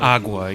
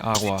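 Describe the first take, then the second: First: The g is a hard, stopped sound. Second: The g is a soft, breathy sound. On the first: The speaker calls it wrong. "you barely even have the hard G's. Like, you don't say" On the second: The speaker calls it right. "you say"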